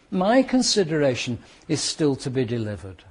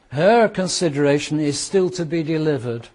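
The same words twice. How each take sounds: First: "My" marked as the contrast word, level tone; stress on MY. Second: "Her" leaned on and a little louder, the rest even; stress on HER. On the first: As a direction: set "My" against "Her". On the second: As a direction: contrast "Her" against the next line's "My". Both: Shown as a demonstration.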